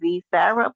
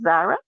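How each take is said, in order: First: The name sounds like 'Zee Sarah'. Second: The name sounds like a plain 'Zara'. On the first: The speaker calls it wrong. "y'all keep saying Z Sarah, but it's not pronounced that" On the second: The speaker calls it right. "It's pronounced Zara"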